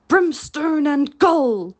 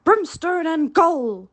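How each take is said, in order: First: Loud, slow, furious oath; pirate captain raging at his men; thundering curse. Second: Slow, loud echo of the captain's curse; mocking Hook's oath. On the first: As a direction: roar the curse at the crew. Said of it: "thundered Hook". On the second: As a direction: throw his own curse back at him. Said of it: "the voice retorted". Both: A narrator's reading.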